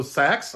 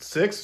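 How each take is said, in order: First: "Sex" as the California way of saying six; six with its vowel lowered to "Sex". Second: Said in the usual way. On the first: Retold or imitated. Ex-wife giving the time, six pronounced "Sex". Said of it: "they had that California accent". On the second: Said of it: "and she would say".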